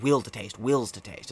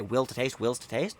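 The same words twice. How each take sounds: First: It is said as an emphatic statement. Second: It is said like a question.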